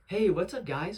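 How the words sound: It sounds happy and enthusiastic.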